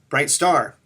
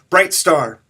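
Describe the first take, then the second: First: Only the second word, star, is stressed. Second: Both words are stressed equally.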